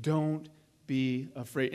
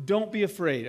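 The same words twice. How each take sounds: First: Gentle, slow reassurance. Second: Said in the usual way. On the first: Retold or imitated. Preacher repeating Elijah's words to the widow, slow and gentle. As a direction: let each word settle like a comfort. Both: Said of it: "That's a Jesus statement".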